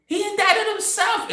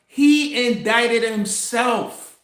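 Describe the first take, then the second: First: Much higher, stretched disbelief; high-pitched amazed repeat; incredulous repeat. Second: Said in the usual way. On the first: Shown as a demonstration. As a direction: say it again like you can't believe it.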